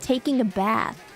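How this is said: It is said in an American accent. "compared to the U S where it's"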